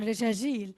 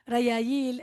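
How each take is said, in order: First: The middle consonants are j sounds. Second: The middle consonants are y sounds. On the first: The speaker is from a Bedouin background. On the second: The speaker is from an urban background.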